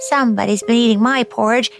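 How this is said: It is said in a small, high voice.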